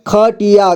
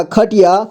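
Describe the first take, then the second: First: खटिया as ख-टि-या; syllable by syllable. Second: Said in the usual way. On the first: Shown as a demonstration. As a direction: sound out खटिया in three parts. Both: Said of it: "एक ही बार में पढ़ेंगे".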